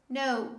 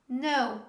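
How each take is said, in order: No difference in how they are said.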